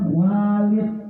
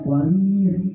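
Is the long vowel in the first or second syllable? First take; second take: first; second. First: The first syllable has the long vowel. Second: The second syllable has the long vowel. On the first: It means father. "bukan Walid" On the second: It is one of Pharaoh's names. "Walid pakai ya"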